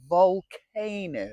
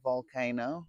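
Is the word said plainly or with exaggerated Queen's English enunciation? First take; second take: exaggerated enunciation; plainly. First: It is said with exaggerated Queen's English enunciation. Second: It is said plainly, without exaggerated enunciation.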